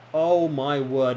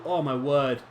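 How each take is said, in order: First: Slow, louder "Oh, my word" with each word stretched; awed at the free kick going in; stunned exclamation. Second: Said in the usual way. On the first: Real, not acted. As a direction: draw it out in disbelief.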